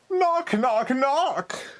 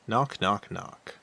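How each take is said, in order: First: It is said with added drama. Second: It is said plainly, without drama.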